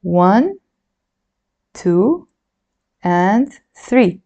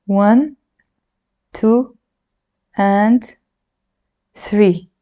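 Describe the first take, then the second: No difference in how they are said.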